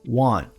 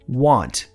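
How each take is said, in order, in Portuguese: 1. O T final é fraco, quase silencioso. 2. O T final é pronunciado com força. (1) "esse T fica bem fraco ou quase não aparece numa frase" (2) "Você pode ouvir ela sendo pronunciada bem forte na palavra want"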